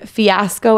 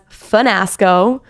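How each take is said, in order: First: The word is said without an n sound. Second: An n sound is added after the first syllable.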